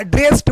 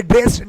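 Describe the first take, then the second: First: T ending on ड्रेस्ड; correct pronunciation demo. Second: D ending on ड्रेस्ड; pupils' mistaken ड्रेस्ड with final d; wrong pronunciation demo. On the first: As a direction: say ड्रेस्ड as drest. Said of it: "बोलना है". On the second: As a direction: say ड्रेस्ड as dresd. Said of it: "बच्चे क्या बोलेंगे". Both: Shown as a demonstration.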